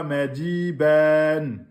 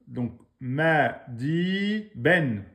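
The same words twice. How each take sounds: First: "mais dis ben" said very slowly, each sound drawn out; "mais dis ben" slow and deliberate as a model; correct pronunciation. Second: "ma, di, ben" broken into separate syllables with pauses; "ma" then "di" then "ben", each on its own; split into syllables. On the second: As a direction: chop "ma, di, ben" apart syllable by syllable. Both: Shown as a demonstration. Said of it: "Ou que vous dites pas".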